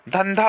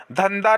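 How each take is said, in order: First: धंधा as "dhan-dha"; correct aspiration. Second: धंधा as "dhan-da"; wrong, no aspiration. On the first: Teacher giving students the right form, aspirated. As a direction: puff the second dh of धंधा. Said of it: "होता है". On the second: Teacher showing students the mistake, aspiration dropped. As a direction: drop the final puff from धंधा. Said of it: "नहीं होता है". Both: Shown as a demonstration.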